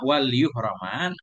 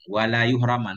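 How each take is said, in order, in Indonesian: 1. Lam tidak memiliki vokal, jadi hanya satu suku kata. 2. Lam memiliki vokal, jadi ada dua suku kata. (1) "walaupun dibaca sukun untuk pas wazan"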